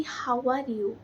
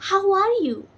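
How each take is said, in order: First: Said in the usual way. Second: "How are you" higher and louder, melodic; sing-song lift on "How are you", with some music in the words; rhythmic, musical. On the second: Shown as a demonstration. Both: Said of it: "So this is a rhythmic sound".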